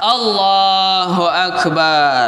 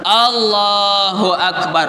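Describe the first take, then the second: First: The vowel in the last syllable is drawn out long. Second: The vowel in the last syllable is short. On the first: The speaker calls it wrong. "Macam mana memanjang pada ba? ... bermasalah" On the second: The speaker calls it right. "Kalau mau berhenti maka berhenti langsung"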